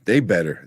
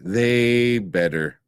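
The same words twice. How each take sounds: First: Said in the usual way. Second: THEY drawn right out, very slow; emphatic repeat. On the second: Real, not acted. Host insisting on a recast, "They" heavily drawn out. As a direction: stretch "They" long before "better".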